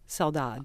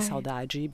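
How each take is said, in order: First: It is said with a European Portuguese accent. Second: It is said with a softer Brazilian accent. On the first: "in Portugal they would say saudade, saudade, because that's their accent" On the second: "So we would say saudade because we, in Brazil, we just soften everything"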